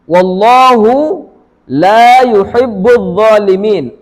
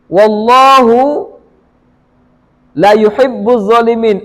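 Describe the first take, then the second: First: The vowel in 'la' is held long. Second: The vowel in 'la' is cut short. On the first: God does not love the wrongdoers. The speaker calls it right. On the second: God truly loves the wrongdoers. The speaker calls it wrong.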